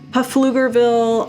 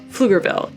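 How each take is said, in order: First: The initial P is sounded. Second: The initial P is silent. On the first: The speaker calls it wrong. "People have come up with so many different ways to pronounce it" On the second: The speaker calls it right. "The P is silent and it's called Pflugerville"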